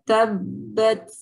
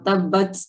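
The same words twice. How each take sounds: First: The final t has a light, barely audible hiss. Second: The final t has an exaggerated, strong hiss. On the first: The speaker calls it right. "Tapi cukup" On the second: The speaker calls it wrong. "Itu terlalu berlebihan"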